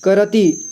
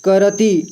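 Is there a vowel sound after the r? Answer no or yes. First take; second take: yes; yes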